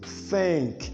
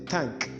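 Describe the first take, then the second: First: The N sound is lengthened and held. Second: The N sound is short, not lengthened. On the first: The speaker calls it right. "the N needs to be given a little space for elongation" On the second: The speaker calls it wrong. "We don't say thank"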